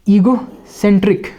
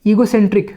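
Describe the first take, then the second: First: egocentric said slowly, SEN drawn out; stressed demo. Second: Said in the usual way. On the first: Shown as a demonstration. Teacher modelling egocentric for students, सेन stretched long. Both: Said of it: "stress करके बोलना है".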